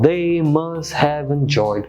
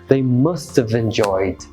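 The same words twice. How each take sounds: First: "Have" is said in full. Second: "Have" is reduced to a contraction. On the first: "the written form, complete form" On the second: "you will use the contract form"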